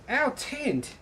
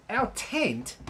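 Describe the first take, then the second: No difference in how they are said.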